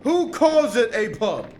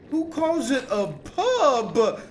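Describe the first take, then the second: First: Louder, punched-up "Who calls it a pub?"; louder repeat. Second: Slow, drawn-out disbelief at "pub"; mocking disbelief. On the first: Gamer repeating his complaint to a friend, louder. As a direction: hit "Who" harder the second time. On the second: Gamer mocking a friend's word choice, slow disbelief. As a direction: stretch out "Who calls it a pub?" slowly, mocking. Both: Shown as a demonstration.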